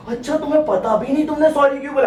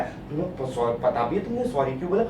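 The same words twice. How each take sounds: First: High-pitched indignant girlfriend imitation; hammed-up high, incredulous accusation; mock outrage. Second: Put-on low, hushed girlfriend questioning; low and soft mock quizzing; quiet interrogation. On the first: Girlfriend outraged he doesn't know. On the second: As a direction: ask it softly, as a loaded test. Girlfriend quizzing him about his sorry.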